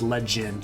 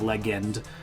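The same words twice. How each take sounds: First: The g is soft, like a j sound. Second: The g is hard, as in 'go'. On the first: The speaker calls it right. "because it's legend" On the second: The speaker calls it wrong. "not legend"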